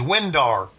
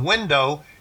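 First: The word ends in an er sound. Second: The word ends in an oh sound. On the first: "any word that ends in O-W is replaced with A-R" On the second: "instead of window"

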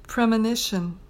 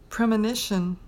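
Both takes have the same delivery.

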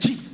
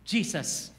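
First: It is yelled loudly. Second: It is said quietly.

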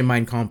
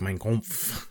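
First: The phrase is said plainly, without extra force. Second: The phrase gets an exaggerated, guttural German flavor. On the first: "I don't say Mein Kampf" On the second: "with a little extra like ugh"

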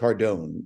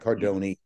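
First: The name ends without a sounded final vowel. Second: The name ends with a sounded final vowel. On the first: This is how the family says its own name. The speaker calls it right. "We don't say the E. It's Cardone" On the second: This is the Italian way, not the family's way. The speaker calls it wrong. "not Cardone"

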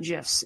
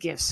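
First: The word begins with a J sound. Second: The word begins with a hard G sound. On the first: The speaker calls it wrong. "not GIFs. GIF is a peanut butter" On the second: The speaker calls it right.

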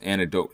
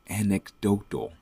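First: The word is said quickly and stumbles. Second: The word is said slowly and carefully. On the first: The speaker calls it wrong. "I can never say that word" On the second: The speaker calls it right. "There you go. I have to slow it down"

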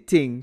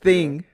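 First: The word begins with a plain T sound. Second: The word begins with a TH sound.

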